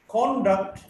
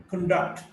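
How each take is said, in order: First: "conduct" as CON-duct; stress on first syllable. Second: "conduct" as con-DUCT; weak start, strong DUCT in "conduct"; stress on second syllable. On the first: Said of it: "stressed in the first syllable". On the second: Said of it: "stressed in the second syllable". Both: Shown as a demonstration.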